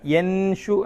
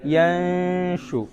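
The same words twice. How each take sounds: First: യൻഷു with a clear, full ന and no nasal hiding; slow incorrect demo of യൻഷു with a plain ന; wrong, plain n. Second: Very slow യൻഷു with the ന hidden in a soft nasal hum; correct ikhfa. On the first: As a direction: say യൻഷു with the ന fully sounded, the wrong way. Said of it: "മറയ്ക്കൽ നടന്നില്ല". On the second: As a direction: draw out യൻഷു, softer, blending ന into ഷ. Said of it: "അങ്ങനെ ഓതരുത്. എങ്ങനെ?". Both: Shown as a demonstration.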